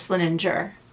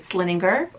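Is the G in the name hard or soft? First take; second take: soft; hard. First: The G is said as a soft sound. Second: The G is said as a hard sound. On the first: "soft G" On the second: "a hard G"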